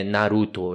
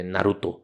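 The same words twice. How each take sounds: First: Said in the usual way. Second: "Naruto" softly stressed on the last syllable; final-syllable stress. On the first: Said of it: "Não é Naruto". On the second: Shown as a demonstration. Correcting the name, "Naruto" stressed on the final syllable. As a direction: let the stress land on "to" in "Naruto". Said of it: "a sílaba forte é sempre a última".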